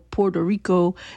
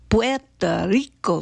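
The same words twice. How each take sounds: First: The R sounds are soft and not rolled. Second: The R sounds are strongly rolled. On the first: The speaker calls it wrong. "It ain't no Puerto Rico" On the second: The speaker calls it right. "you need to roll the R's a little more"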